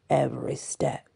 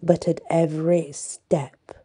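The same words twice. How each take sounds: First: "every step" repeated lower and softer; echoed softly. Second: Said in the usual way. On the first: Acted. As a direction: echo "every step" low and quiet. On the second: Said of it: "every step repeated".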